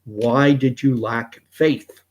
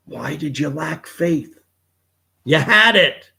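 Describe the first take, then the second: First: Slow, measured rebuke. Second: Higher-pitched, exasperated rebuke building to a loud outburst. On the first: Jesus rebuking a sinking Peter, in slow reproach. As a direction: ask it slowly as a mild reproach. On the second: Jesus rebuking a sinking Peter, exasperated and rising. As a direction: start incredulous, then burst out high and loud. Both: Retold or imitated. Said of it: "Jesus rebuked him and said".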